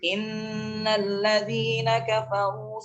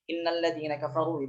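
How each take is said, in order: First: The nasal n sound is held long. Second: The nasal n sound is cut short. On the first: The speaker calls it right. "diberikan kadar yang sesuai. Jangan dikurangi" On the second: The speaker calls it wrong. "itu salah"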